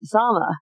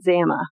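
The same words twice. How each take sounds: First: "Zama" with an open ah, ZAH-ma; correct pronunciation. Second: "Zama" with the first a as in camp; mistaken pronunciation. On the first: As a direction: say "Zama" the Japanese way, first a as in father. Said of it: "It's really pronounced Zama". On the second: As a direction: say "Zama" with a short, flat a like camp. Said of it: "pronounce it Zama, like, uh, in camp". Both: Shown as a demonstration.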